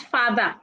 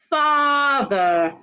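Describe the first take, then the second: First: The first vowel is not long. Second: The first vowel is long. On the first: The speaker calls it wrong. "not father" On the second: The speaker calls it right. "The letter A in father has a long R sound"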